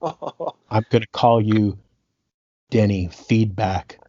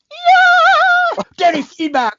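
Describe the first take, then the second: First: Slow, lower, deadpan menace; mock threat. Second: Squealed way up high with glee; thrilled by a cool new nickname; delighted. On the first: Boss threatening his sound engineer, slow low mock menace. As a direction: drag the nickname out as a threat. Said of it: "Prince just stops and he goes". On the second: Retold or imitated. Engineer secretly loving his new nickname, high gleeful squeal. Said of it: "the other part of me was like".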